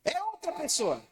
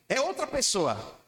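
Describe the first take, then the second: First: Outra sung out high and soft; echoing outra high and hushed; high softer echo. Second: Outra lifted and held slower; first take, outra stressed at mid height. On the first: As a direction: repeat it higher and gentler, stressing outra. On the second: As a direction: lean slowly on outra. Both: Shown as a demonstration.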